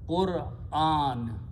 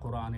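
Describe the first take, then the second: First: A glottal catch separates 'Qur' from a long 'an'. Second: The word runs together with no catch before 'an'. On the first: The speaker calls it right. "You should learn to pronounce this word correctly" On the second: The speaker calls it wrong. "Almost all Pakistanis, Indians pronounce this wrong. They say Quran"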